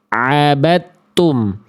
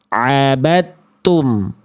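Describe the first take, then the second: Both takes have the same delivery.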